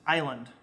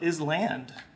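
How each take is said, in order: First: No S sound is pronounced before land. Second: An S sound is pronounced before land. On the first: The speaker calls it right. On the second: The speaker calls it wrong.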